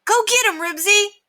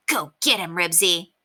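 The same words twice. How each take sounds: First: High, loud cheer. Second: Said in the usual way. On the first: A narrator's reading. Scooter cheers Ribsy in the fight, excitedly. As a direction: egg the dog on loudly. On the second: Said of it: "he would have yelled out".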